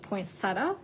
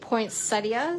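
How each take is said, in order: First: The word has a plain, everyday pronunciation. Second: The word has a fancier, posher pronunciation. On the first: This is the usual everyday way to say it. "I normally pronounce it poinsettia" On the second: This sounds more refined. "sounds a little more fancy and posh"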